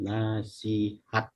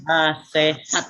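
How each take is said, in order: First: The second syllable has an I vowel. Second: The second syllable has an E vowel. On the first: The speaker calls it right. "bukan pakai e tapi pakai i" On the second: The speaker calls it wrong. "contoh yang tidak baku"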